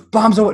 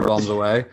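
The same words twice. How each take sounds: First: High, loud yell of bombs away; shouted. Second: Said in the usual way. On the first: Retold or imitated. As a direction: yell it as you throw. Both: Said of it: "He either shouted Geronimo or".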